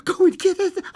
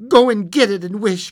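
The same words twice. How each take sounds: First: Very high, frantic cry; quivering excitement. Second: High, loud urgent command; excited cry. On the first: Wife repeats her demand to husband, quivering excitedly. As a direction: shriek it, quivering, near sobs. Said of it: "quivering with excitement". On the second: Wife orders husband to fetch paw, excited cry. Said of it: "cried the wife, quivering with excitement". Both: A narrator's reading.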